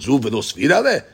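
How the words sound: It is said with a questioning tune.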